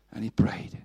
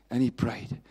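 The two takes are said the same way.

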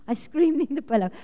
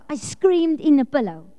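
First: Laughing through the words. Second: Said in the usual way. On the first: Real, not acted. Laughing at herself as she tells the congregation. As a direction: giggle as you repeat it.

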